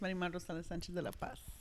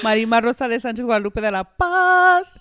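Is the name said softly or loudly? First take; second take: softly; loudly. First: The name is said softly. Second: The name is said loudly.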